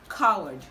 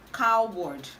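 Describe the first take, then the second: First: The W sound is left out. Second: The W sound is clearly pronounced. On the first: The speaker calls it right. "the W in that word is silent" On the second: The speaker calls it wrong. "This word is commonly pronounced coward"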